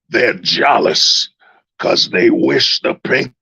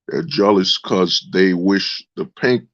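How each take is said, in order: First: It is read in a put-on preacher voice. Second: It is read in an ordinary speaking voice.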